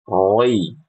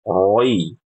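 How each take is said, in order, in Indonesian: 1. Suku kata ini terdengar tebal dan bulat, seperti roi. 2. Suku kata ini terdengar tebal dan bulat, seperti roi.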